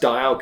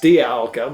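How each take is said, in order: First: The first part sounds like the word 'dial'. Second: The first part does not sound like 'dial'. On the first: It follows the word's origin in 'dial', to do with time. "technically should be pronounced Dialga because dial" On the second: It is the way most people say it. "pronounced Dialga mainly"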